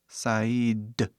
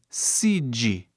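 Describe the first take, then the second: First: The word is said with English vowel sounds. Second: The word is said with Portuguese vowel sounds. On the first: The speaker calls it right. "hoje em dia falamos side" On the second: The speaker calls it wrong. "no português isso seria side"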